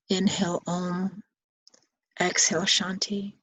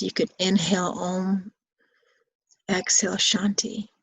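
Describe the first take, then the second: First: Mantra with breath. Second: Said in the usual way. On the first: Shown as a demonstration. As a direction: breathe the words as you guide.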